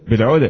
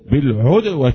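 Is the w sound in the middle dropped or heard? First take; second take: dropped; heard. First: The w sound in the middle is dropped. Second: The w sound in the middle is clearly heard. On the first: The speaker calls it wrong. "لأن بعض يقول بالعدة" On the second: The speaker calls it right. "كيف تقرأ إذ أنتم إيه بالعدوة هكذا"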